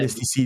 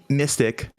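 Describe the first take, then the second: First: The name sounds like misty followed by see. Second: The name sounds like the word mystic. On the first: "depending on how you pronounce it" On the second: "I'm pretty sure he likes it. Ass Mystic"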